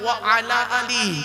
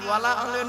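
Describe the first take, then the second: First: Wa and ala stay separate; the last word ends in 'ee'. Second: Wa and ala merge; the last word ends in 'e'. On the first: The speaker calls it right. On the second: The speaker calls it wrong. "ওয়ালা আলে নয়, ওয়ালা আলে বলবেন না"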